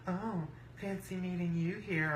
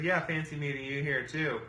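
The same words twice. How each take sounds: First: Higher, softer mock greeting; mimicked rival women. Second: Said in the usual way. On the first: Rivals showing up at the table, high soft mimicry. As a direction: put on their higher, softer voice.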